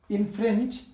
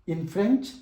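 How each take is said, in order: Both takes have the same delivery.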